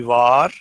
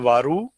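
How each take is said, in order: First: The final u vowel is barely heard. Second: The final u vowel is clearly pronounced. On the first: The speaker calls it right. "We just give a very very slight pronunciation" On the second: The speaker calls it wrong. "we don't say varu"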